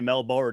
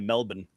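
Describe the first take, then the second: First: Melbourne is said with an American pronunciation. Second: Melbourne is said with an Australian pronunciation. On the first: The speaker calls it wrong. "We say Melbourne in in America" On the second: The speaker calls it right. "they say Melbourne"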